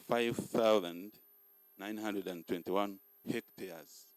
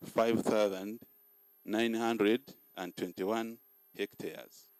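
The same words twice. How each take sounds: The two takes are said the same way.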